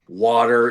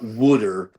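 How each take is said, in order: First: It is said in a standard accent. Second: It is said in a Philadelphia accent. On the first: The speaker calls it right. "everyone knows the word water is not wooder" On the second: The speaker calls it wrong. "trying to get the Philadelphia out of my mouth"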